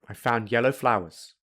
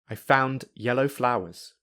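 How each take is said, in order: First: The d is dropped or softened. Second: The d and yellow are kept separate. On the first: "I will say them without a d or a softer d" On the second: "I will say them without linking"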